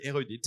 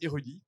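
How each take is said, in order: First: The name is said with English pronunciation. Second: The name is said with French pronunciation. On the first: This is how English speakers would say it. "si on le dit à l'anglais" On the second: This is the company's own pronunciation. "on prononce érudit. comme quelqu'un d'érudit"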